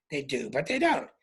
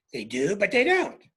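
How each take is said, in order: First: "They do, but they don't" lower, with "don't" falling; lower falling take. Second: "They do, but they don't" ending on a rising "don't". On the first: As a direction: settle "don't" down low and final. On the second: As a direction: lift "don't" up at the end as a question. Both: Shown as a demonstration.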